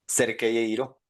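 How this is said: The names are pronounced with Spanish sounds. "tal cual"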